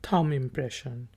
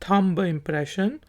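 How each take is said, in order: First: No b sound is pronounced after the m. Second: A b sound is pronounced after the m. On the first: The speaker calls it right. "लेकिन ये होगा थम impression. आखिरी जो बी है वो silent है।" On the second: The speaker calls it wrong. "बहुत से लोग इसको थंब कहते हैं"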